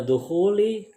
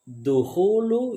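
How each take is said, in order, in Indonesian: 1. Kata ini berakhir dengan vokal 'i'. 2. Kata ini berakhir dengan vokal 'u'. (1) "yang dibaca duhuli" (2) "ada duhulu yang dibaca duhuli"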